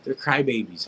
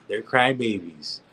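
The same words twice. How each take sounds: First: Said in the usual way. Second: Slow, deliberate "crybabies"; standing by it. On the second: Shown as a demonstration. Doubling down to his critics, slow firm "crybabies". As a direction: lean into "crybabies" and land it firmly. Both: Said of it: "I said it, and what?".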